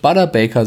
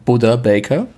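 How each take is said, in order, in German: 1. Der Vorname klingt wie das Wort Butter. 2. Der Vorname klingt wie das Wort Buddha. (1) "dass man wohl nicht Butter Baker sagt" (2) "sondern Buddha Baker"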